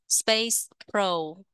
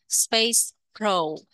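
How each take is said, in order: Both takes have the same delivery.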